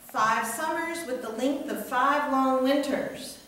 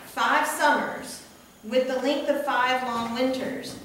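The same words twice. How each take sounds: First: There is no pause after 'summers'. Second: There is a pause after 'summers'.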